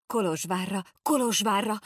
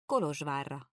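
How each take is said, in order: First: Higher, louder Kolozsvárra repeated in alarm; excited outburst. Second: Said in the usual way. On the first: A narrator's reading. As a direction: jump up crying Kolozsvárra, Kolozsvárra. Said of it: "ugrott fel a két gyerek".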